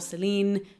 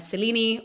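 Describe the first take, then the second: First: The final E is silent. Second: The final E is pronounced as a vowel. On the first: "or not" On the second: "depending on if you pronounce that last E"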